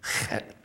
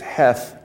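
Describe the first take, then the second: First: It starts with a rough sound from the throat. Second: It starts with a plain, light English h. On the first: The speaker calls it right. "you make that sound at the back of your throat" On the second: The speaker calls it wrong. "if you look at it in English, you say it's heth. No, it's not heth"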